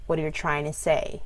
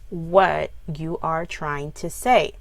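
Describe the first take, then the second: First: The words run together with reduced, linked sounds. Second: Each word is said separately and fully. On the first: "we link sounds together when we're speaking" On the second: "write down what you're trying to say"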